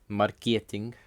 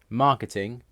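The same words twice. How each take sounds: First: It is stressed the Russian way. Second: It is stressed the English way. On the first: "have different stress in Russian" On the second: "English words"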